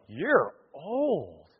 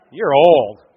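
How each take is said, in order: First: Softer, drawn-out judgement; people's verdict on Samuel. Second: Loud, falling mock verdict; blunt verdict. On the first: Acted. People coming to Samuel, soft drawn-out verdict. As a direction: say it softly, letting it hang. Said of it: "they go". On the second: People judging the speaker's age, loud blunt verdict. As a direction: drop it bluntly and loudly. Replaying the unwelcome response.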